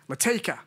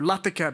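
First: The name is said with an Australian pronunciation. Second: The name is said with an Indian pronunciation. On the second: "Indians and Australians pronounce people's names differently"

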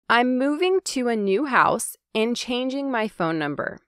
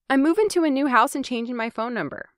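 First: It is slow and the -ing endings are full. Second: It is fast and the -ing endings are reduced. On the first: "Hear how I spoke clearly, enunciating each syllable?" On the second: "you can hear how I reduced that ing sound on moving and changing"

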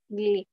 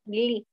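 First: It is said with a nasal gli sound. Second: It is said with a nasal gli sound.

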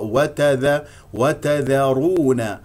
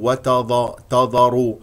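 First: The opening consonants are light and plain. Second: The opening consonants are heavy and emphatic. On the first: The speaker calls it right. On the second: The speaker calls it wrong.

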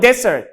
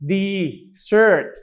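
First: The final syllable is short, not drawn out. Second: The final syllable is drawn out long. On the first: It means a dry sandy land. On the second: It means a sweet dish.

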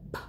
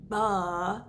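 First: Only a short puff of air follows b. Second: A vowel sound follows the b consonant. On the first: The speaker calls it right. "they would go buh. Feel that puff of air" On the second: The speaker calls it wrong. "instead of saying buh"

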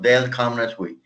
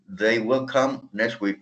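First: 'Will' is shortened and joined to 'they'. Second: 'Will' is said as a separate full word. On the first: "O they'll come next week" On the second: "usted puede decir they will come"

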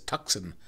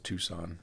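First: A C sound is pronounced in the middle. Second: No C sound is pronounced in the middle. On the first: The speaker calls it wrong. "I always read that as Tucson" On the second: The speaker calls it right. "I'm not supposed to pronounce the C"

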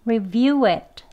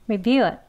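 First: 'It' has a full vowel and a released t. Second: 'It' has a weak, reduced schwa vowel. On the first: This is the emphatic form. "강형 발음" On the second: This is the fast conversational form. "그냥 슈아 발음이죠"

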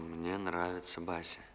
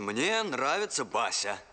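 First: It is said quietly, without extra volume. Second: It is said loudly, with raised volume. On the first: The speaker calls it wrong. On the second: The speaker calls it right.

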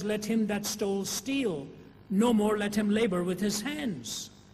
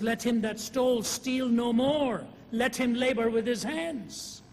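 First: The pause comes right after the word steal. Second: The pause comes right after the words no more.

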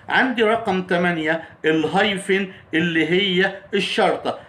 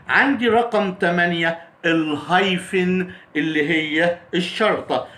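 Both takes have the same delivery.

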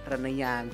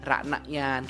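First: The first vowel is thin and reduced. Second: The first vowel is a full, clear a. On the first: The speaker calls it right. "tapi renayan tipis saja" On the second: The speaker calls it wrong. "Tidak jelas dibaca ranayan kayak gitu ya"

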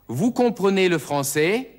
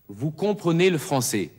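First: The voice rises at the end, as a question. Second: The voice falls at the end, as a statement.

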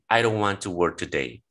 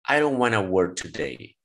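First: "Want to" is said as two full words. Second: "Want to" is blended into "wanna."

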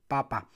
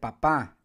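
First: The stress is on the first syllable. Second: The stress is on the last syllable.

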